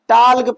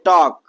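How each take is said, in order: First: The L sound is pronounced in the word. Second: The L sound is left out of the word. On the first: The speaker calls it wrong. "टाल्क पढ़ देते इसको" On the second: The speaker calls it right. "आप क्या पढ़िए टॉक"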